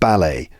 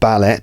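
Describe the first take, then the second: First: The final T is left silent. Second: The final T is clearly pronounced. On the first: The speaker calls it right. "Notice that the T is not pronounced" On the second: The speaker calls it wrong. "It's not ballet"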